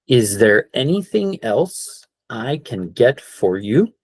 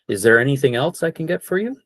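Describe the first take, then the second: First: It is said at a slower pace. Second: It is said at a faster pace.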